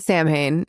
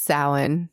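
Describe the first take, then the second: First: It is said as spelled, like Sam Hain. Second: It is not said like Sam Hain. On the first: The speaker calls it wrong. "it's not Sam Hain" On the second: The speaker calls it right. "It's Samhain"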